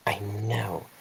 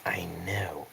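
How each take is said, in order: First: Soft, under-the-breath answer; hushed reply. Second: Very soft, voiceless whisper; whispered reply. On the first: Replying to Arthur about the three candidates, hushed. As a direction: answer quietly, nearly whispering. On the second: Whispering back to a companion about the candidates, barely audible. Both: Acted. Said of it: "I whisper back".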